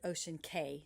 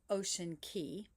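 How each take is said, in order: First: The last word rhymes with 'day'. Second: The last word rhymes with 'see'. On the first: The speaker calls it wrong. "or you may pronounce it Ocean Cay" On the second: The speaker calls it right. "the real pronunciation of C A Y is Key"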